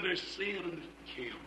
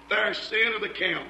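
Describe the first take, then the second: First: Lower, much softer "There's sin in the camp"; grave hush. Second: Said in the usual way. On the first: Acted. Angel pronouncing judgment on Joshua, solemn low hush.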